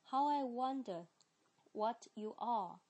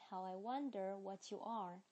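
First: It is said in a British accent. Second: It is said in an American accent. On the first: "先第一遍是British 英式的。" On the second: "接下来我就美式的再来发一遍啦。"

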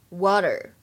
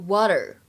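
No difference in how they are said.

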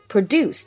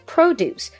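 First: The stress is on the second syllable. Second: The stress is on the first syllable. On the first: It is the verb meaning to make or manufacture. "可能学的是它的动词的形式produce" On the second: It is the noun meaning fresh fruits and vegetables. "但是重音改变之后produce 指的是农产品"

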